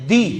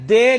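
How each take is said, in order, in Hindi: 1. स्वर उच्च 'ee' ध्वनि है। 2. स्वर मध्य 'ay' ध्वनि है। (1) "बल्कि दाल जेर दी" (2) "दाल जेर दे नहीं होता"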